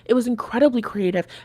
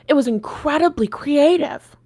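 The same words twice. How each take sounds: First: It sounds sincere, in her natural voice. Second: It sounds sarcastic, like a put-on voice.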